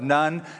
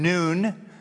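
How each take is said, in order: First: The name is given an anglicized pronunciation. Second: The name is given its Hebrew pronunciation. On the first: The speaker calls it wrong. "depending on your background, religious background, just doesn't play well" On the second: The speaker calls it right. "that'd be the Hebrew pronunciation"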